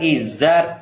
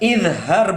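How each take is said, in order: First: The z is said plainly, with no h. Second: The z is followed by an h sound. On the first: The speaker calls it wrong. "bukan izar" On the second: The speaker calls it right.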